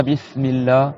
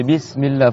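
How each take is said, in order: First: Bismillah with a lisped sh in place of the s; slushy sh for s. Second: Bismillah with a clear whistling s; Bismillah, teeth close, crisp hissed s; plain. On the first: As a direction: say Bismillah as "bishmillah", tongue slushing the s. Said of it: "C'est pas Bismillah ... cheveu sur la langue". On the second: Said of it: "faut qu'il siffle un petit peu". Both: Shown as a demonstration.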